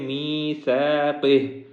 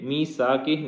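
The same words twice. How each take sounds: First: The consonant after 'mee' is a soft 'th' sound. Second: The consonant after 'mee' is a plain 's' sound. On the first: The speaker calls it right. "बल्कि मीसाक़िह, यहाँ पे सा है" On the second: The speaker calls it wrong. "ये मीसाक़िह नहीं है"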